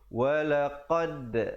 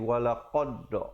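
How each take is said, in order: First: The final d bounce is said with flat lips. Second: The final d bounce is said with rounded lips. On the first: The speaker calls it right. "Ba, jim dan dal pepiskan" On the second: The speaker calls it wrong. "Jangan pula dal kita bulatkan jadi walaqad. Tak betul ya"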